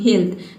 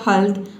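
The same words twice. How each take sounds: First: The vowel is a long ee sound. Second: The vowel is a short uh sound. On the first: "तीसरा pronunciation क्या है ई" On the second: "फिर आपने pronounce किया"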